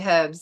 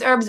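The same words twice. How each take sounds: First: The word is said in a British way. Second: The word is said in a non-British way. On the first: "in England they say herbs" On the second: "I think it's herbs"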